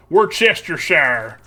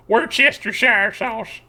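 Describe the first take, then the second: First: Worcestershire drawn out slow as "Wor-ces-ter-shire", every syllable said; slow and careful, Worcestershire spelled out in sound; grandma's pronunciation. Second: Worcestershire sounded out slowly, every syllable, then sauce; slow careful Worcestershire with each syllable said; grandma's pronunciation. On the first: Showing chat how grandma said Worcestershire, slowly. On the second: Retelling grandma's Worcestershire for the stream, slow and careful. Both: Shown as a demonstration. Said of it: "that's how my grandma used to pronounce that".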